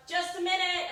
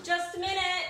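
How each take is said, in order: First: High, loud hurried call. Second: High, loud call through a door. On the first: To the impatient crowd outside, a high loud flustered call. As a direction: call out through the door, flustered. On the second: To the knocker outside the bathroom, a loud hurried call. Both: Retold or imitated. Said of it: "And I'm like".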